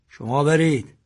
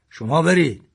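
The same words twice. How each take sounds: First: Firm order. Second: Louder, firmer order; father ordering his sons to leave, firmly. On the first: Father orders sons away. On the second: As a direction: send them away, insisting. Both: A narrator's reading.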